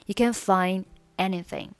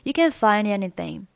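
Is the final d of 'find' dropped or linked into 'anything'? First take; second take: dropped; linked. First: The d is dropped and anything stands apart. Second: The d of find runs straight into anything. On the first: "或者呢是选择find 末尾的不发音" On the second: "这里find 和anything 可以连读成find anything"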